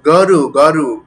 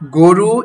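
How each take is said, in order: First: "গরু" as gawru, open first vowel; as written. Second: "গরু" as goru, loud rounded o; usual correct pronunciation. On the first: Teacher shows students the spelling, "গরু" with open aw. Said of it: "লেখা হয় কিভাবে". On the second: Teacher shows how we say it, loud "গরু" with o. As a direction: say "গরু" with a closed o in go. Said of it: "আমরা ঠিকভাবেই বলি". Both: Shown as a demonstration.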